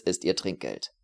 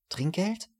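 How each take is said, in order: First: Said in the usual way. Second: "Trinkgeld?" drawn out, tasted, rising high in disbelief; the waiter savors "Trinkgeld" in astonished delight; savoring the word. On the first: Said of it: "schmeckte das Wort förmlich ab". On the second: A narrator's reading. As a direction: roll "Trinkgeld" on the tongue like a rare treat. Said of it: "Der Kellner schmeckte das Wort förmlich ab".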